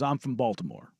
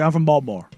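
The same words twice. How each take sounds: First: Baltimore is said plainly with all its syllables. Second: Baltimore is clipped in a local Baltimore accent.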